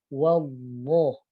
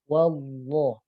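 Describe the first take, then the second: No difference in how they are said.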